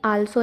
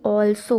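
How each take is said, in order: First: The first vowel is an open 'ah' sound. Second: The first vowel is a rounded 'aw' sound. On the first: The speaker calls it wrong. "आल्सो नहीं" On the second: The speaker calls it right. "ऑल्सो होता है"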